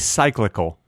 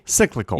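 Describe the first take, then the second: First: The first syllable sounds like 'sigh', as in cycle. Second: The first syllable sounds like 'sick'. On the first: The speaker calls it wrong. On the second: The speaker calls it right.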